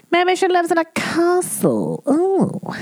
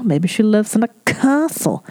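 First: High put-on English lady voice; posh English voice. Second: Said in the usual way. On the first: Shown as a demonstration. Host imagining the English fan in her castle, in a high posh voice. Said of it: "repeated in put-on voice".

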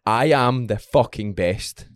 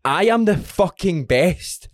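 First: Slowed, deliberate affirmation; slow gym self-talk mantra. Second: Slow, higher, emphatic affirmation; slow and fired-up mantra; slow pumped mantra. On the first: Retold or imitated. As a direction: drag each word out to psych yourself up. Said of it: "Sometimes I'll just be like". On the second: Shown as a demonstration. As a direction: hammer each word slowly to fire yourself up. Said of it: "say to yourself".

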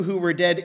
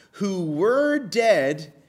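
First: Said in the usual way. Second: "who were dead" drawn out slowly, higher pitched; stress on WERE DEAD. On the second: Real, not acted. Preacher reading scripture to believers, slow emphasis on "were dead". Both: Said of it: "You heard me emphasize it".

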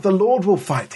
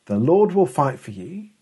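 First: Rebuke. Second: Said in the usual way. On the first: Retold or imitated. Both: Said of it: "more of an angry rebuke".

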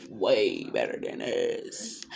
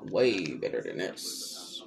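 First: Slow emphatic repeat. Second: Low slow emphatic. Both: Shown as a demonstration.

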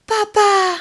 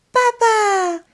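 First: High, loud wake-up call of joy; joyful cry. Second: Put-on high, bright cry of a boy finding his father; joyful cry. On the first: Acted. Pinocchio wakes and calls his father, joyful cry. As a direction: cry out to papa, delighted. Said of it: "s'écrie Pinocchio". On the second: Pinocchio retrouve son père, cri de joie aigu. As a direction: call out to papa in joy. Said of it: "s'exclame Geppetto".

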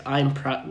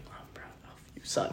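First: Said in the usual way. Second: Whispered words of praise; retelling dad's quiet praise in a whisper. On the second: Shown as a demonstration. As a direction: breathe it out, barely voiced.

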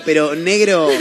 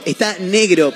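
First: "negro" lengthened with a laugh; stress on negro. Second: Said in the usual way. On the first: Shown as a demonstration. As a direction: lean hard on "negro".

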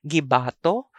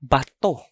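First: Gibato as gi-BAA-to, rising end; long middle syllable in Gibato. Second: Bato as ba-TO', stress on the end; short, stopped bato. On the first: Teacher shows the throwing word in a sentence, Gibato with long BAA. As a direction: stretch the ba of "Gibato". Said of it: "that's the first sound or pronunciation". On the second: Teacher shows the rock word in a sentence, bato short and end-stressed. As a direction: keep "bato" short and land hard on to. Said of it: "The alternate pronunciation for it". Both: Shown as a demonstration.

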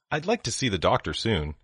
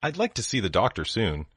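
No difference in how they are said.

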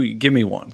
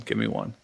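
First: Said in the usual way. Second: Unvoiced whisper. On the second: Shown as a demonstration. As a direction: whisper the request.

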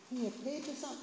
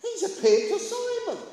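First: Said in the usual way. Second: High, loud burst of news; excited announcement. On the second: Acted. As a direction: proclaim astonishing news, pitched high. Acting out disciples' amazed news.

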